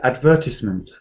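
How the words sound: It is said with British word stress. "in Britain, they say advertisement"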